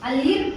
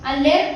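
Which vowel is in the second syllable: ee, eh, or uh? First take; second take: ee; eh. First: The second vowel sounds like 'ee'. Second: The second vowel sounds like 'eh'. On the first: "ಅಲಿರ್ಟ್ ಅನ್ನಲ್ಲ" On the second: "ಅಲೆರ್ಟ್ ಅನ್ನಲ್ಲ"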